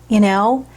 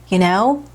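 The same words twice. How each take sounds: The two takes are said the same way.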